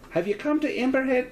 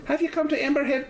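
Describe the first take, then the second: First: Put-on higher landlady slipping into a Scottish accent; Scottish accent creeping in by mistake; accidental Scottish accent. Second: Put-on higher, faster retry still stuck in a Scottish accent. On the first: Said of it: "that turned into a Scottish accent". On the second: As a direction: try again, Scottish lilt won't shake off. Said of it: "now I'm stuck in a Scottish one".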